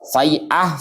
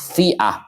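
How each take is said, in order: First: The first syllable has the diphthong 'ai'. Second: The first syllable has a plain 'i' vowel. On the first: "bisa dibaca fai'ah" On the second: "atau fi'ah"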